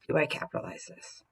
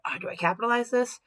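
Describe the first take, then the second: First: "Do I capitalize this?" whispered softly under the breath; soft whispered self-check. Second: "Do I capitalize this?" asked aloud, pitched higher and puzzled; voiced puzzled self-question; wondering aloud. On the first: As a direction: murmur the question privately to yourself. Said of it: "Is it one of my mints?". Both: Shown as a demonstration.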